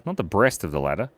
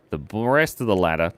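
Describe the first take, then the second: First: "not" stressed, then "breast" said clearly as the corrected word; correcting stress. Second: "breast" said in place of "rest", the r slurred into br; slip of the tongue. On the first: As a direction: hit "not" hard, then say "breast" carefully. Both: Real, not acted.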